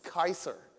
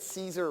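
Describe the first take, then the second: First: The name begins with a K sound. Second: The name begins with an S sound. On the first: The speaker calls it right. "It's Kaiser" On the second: The speaker calls it wrong. "you can't even get Caesar right"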